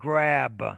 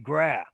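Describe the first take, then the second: First: The final consonant sound is pronounced. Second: The final consonant sound is left off. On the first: The speaker calls it right. "Instead of grab" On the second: The speaker calls it wrong. "they might say gra"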